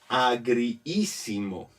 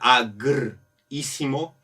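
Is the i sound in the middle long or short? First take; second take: long; short. First: The middle i vowel is doubled and lengthened. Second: The middle i vowel is short and single. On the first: The speaker calls it right. "es mejor alargar un poco la palabra" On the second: The speaker calls it wrong. "Si fuera agrísimo, sonaría un poco fuerte"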